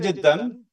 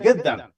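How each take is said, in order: First: The word begins with a j sound. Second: The word begins with a hard g sound. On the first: This is the standard form. "they will not say Jiddan" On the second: The speaker belongs to a certain region or class. "they will say Giddan, G"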